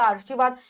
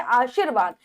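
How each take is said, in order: First: आशीर्वाद with an early r, 'aarshivaad'; r jumps ahead of 'shi' in आशीर्वाद; mispronounced आशीर्वाद. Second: आशीर्वाद with r after 'shee', 'aa-sheer-vaad'; correct आशीर्वाद. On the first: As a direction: say आशीर्वाद wrongly as 'aar-shi-vaad'. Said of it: "रा यहाँ है तो ये पहले बोला जाएगा". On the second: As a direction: say आशीर्वाद as 'aasheervaad'. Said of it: "नहीं हमारा शब्द है". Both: Shown as a demonstration.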